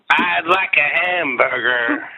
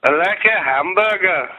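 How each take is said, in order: First: Slow, higher-pitched put-on singer voice. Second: Put-on higher-pitched, botched Liverpool accent. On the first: Rock singer ordering a hamburger, slow hammed-up voice. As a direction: drawl it out in a rock singer impression. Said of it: "I'll do my [name] impression". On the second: Impressionist playing a Beatle ordering food, hammed-up Liverpool voice. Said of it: "my impression of, um, [name]".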